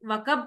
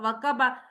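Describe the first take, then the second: First: The word ends on a consonant, final vowel dropped. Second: The word ends on a vowel, final vowel pronounced. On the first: It is the pausal reading at the end of the verse. "उसको साइलेंट कर रहे हैं" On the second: It is the full underlying form of the word. "लेकिन है तो वकबा"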